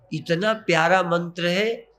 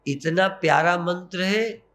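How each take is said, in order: Both takes have the same delivery.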